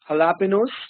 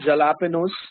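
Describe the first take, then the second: First: The word begins with an H sound. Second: The word begins with a J sound. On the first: The speaker calls it right. "J is H in Spanish" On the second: The speaker calls it wrong. "It's not jalapenos"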